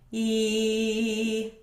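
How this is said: The voice is open and free, like withheld laughter. "retracting your false vocal folds"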